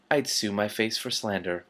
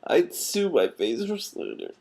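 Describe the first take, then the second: First: Said in the usual way. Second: I'd sue my face for slander, drawn out, higher and slower; slower, higher retake. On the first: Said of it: "repeated line". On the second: Shown as a demonstration. Reader redoing the Patrician's quip, slower and higher. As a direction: lean on sue and let it fall. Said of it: "retake of the line".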